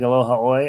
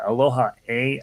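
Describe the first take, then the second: First: The final word ends with an 'oy' sound. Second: The final word ends with an 'ay' sound. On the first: This is the speaker's habitual way of saying it. The speaker calls it wrong. "That's what I've always said. Um, I understand it is wrong" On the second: This is how most Hawaiians say it. The speaker calls it right. "I think, is how most Hawaiian say it"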